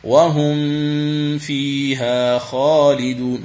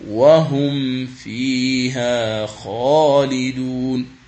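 First: وهم فيها خالدون with the ميم hidden before فيها, slow; wrong recitation. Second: وهم فيها خالدون very slow, ميم clearly sounded before فيها; correct recitation. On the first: المعلم يقلد من يخفي الميم. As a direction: imitate the reader who hides the ميم. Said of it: "تجده يقرأ". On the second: المعلم يقرأ بإظهار الميم قبل الفاء. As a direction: model the right reading. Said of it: "هذه هي القراءة الصحيحة". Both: Shown as a demonstration.

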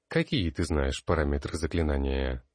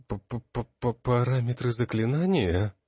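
First: Said in the usual way. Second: Higher, stuttering on the first sound; stammering confused echo. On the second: A narrator's reading. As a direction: stammer it out, lost for an answer. Confused student echoes the question. (растерянно, заикаясь, выше)

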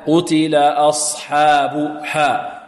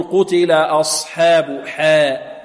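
First: Slow "أصحاب حاء" with a clear open "hā"; pure fatha. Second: Slow "أصحاب حاء" with حا as "hē"; tilted fatha. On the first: Teacher correcting, pure open "hā" in "حاء". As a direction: open the vowel of "حاء" fully, drawn out. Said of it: "فتح خالص". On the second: Teacher imitating the over-thinned ha, "حاء" as "hē". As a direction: bend the vowel of "حاء" towards e. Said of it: "يميل فتحة الحاء". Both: Shown as a demonstration.

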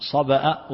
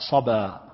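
First: صبأ with a glottal stop at the end; with hamza. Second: صبا with a long open final vowel; no hamza. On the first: Teacher contrasting two forms, صبأ with its hamza. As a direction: sound the hamza that closes صبأ. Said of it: "الهمز". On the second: Teacher contrasting two forms, صبا without its hamza. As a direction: draw out the end of صبا with no glottal stop. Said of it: "بغير همز". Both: Shown as a demonstration.

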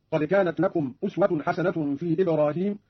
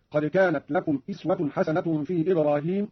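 First: Said in the usual way. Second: أسوة said "iswatun", with i at the start; Qalun's variant vowel. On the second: Shown as a demonstration. Teacher showing Qalun's reading, أسوة starting with i. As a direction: begin أسوة with "is" rather than "us". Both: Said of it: "قرأ قالون في الموضعين".

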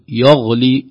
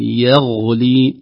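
First: يغلي opening with a dark "yo"; heavy ya. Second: Slow يغلي opening with a thin "ye"; light ya. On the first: Teacher showing the error, dark first vowel in يغلي. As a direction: thicken the first syllable of يغلي toward غ. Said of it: "تأثر الياء بالغين". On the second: Teacher correcting, slow light first vowel in يغلي. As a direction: keep the ي of يغلي thin and drawn out. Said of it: "ترقيق الياء". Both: Shown as a demonstration.

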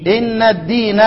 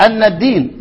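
First: إن الدين started with an "i" on إن; the kasra reading of إن الدين. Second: أن الدين opened with a clear "a" on أن; the fatha reading of أن الدين. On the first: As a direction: say إن الدين as "inna ddin". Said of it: "والباقون يقرؤون إيه؟". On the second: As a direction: say أن الدين as "anna ddin". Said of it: "بالفتح". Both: Shown as a demonstration.

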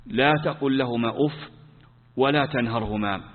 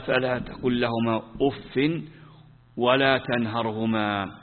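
First: Said in the usual way. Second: Slow, measured reading with weight on فلا and ولا; slow verse recitation. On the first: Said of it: "توجيهان". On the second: Shown as a demonstration. Teacher reciting the verse slowly to students. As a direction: recite فلا تقل لهما أف ولا تنهرهما slowly, leaning on فلا. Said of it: "قال".

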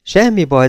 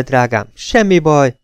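First: Comforting. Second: Soothing. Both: A narrator's reading. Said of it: "megpróbálta megnyugtatni".

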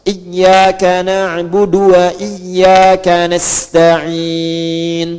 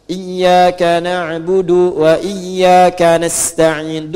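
First: Chanted "na'budu" with du cut short, straight into wa; slow tartil, keeping the du of "na'budu" short. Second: Chanted "na'budu" with the last u lingering; du slightly too long. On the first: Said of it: "Dunya pendek. Harakatnya pendek". ("na'budu" dilantunkan dengan du pendek) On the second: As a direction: chant slowly, overstretching the du of "na'budu". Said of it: "ini suka ada agak panjang kedengaran". ("na'budu" dilantunkan dengan du agak panjang) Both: Shown as a demonstration.

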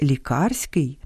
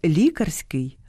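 First: ЛіКА́РСЬКИЙ, second syllable stressed; лікарський with the stress on КАР. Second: ЛІ́карський, first syllable stressed; лікарський with the stress on ЛІ. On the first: (наголос на другому складі: ліка́рський) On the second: (наголос на першому складі: лі́карський) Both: Shown as a demonstration. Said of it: "місце наголосу впливає на значення".

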